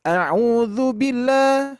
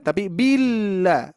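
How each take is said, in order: First: Billah without doubled lam; wrong short lam. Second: Billah with held lam; doubled lam. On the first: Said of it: "jangan gini". ("billah" salah, lam tidak ditahan) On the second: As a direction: hold the l in "billah" a beat. ("billah" dengan lam ditahan, tasydid jelas) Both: Shown as a demonstration.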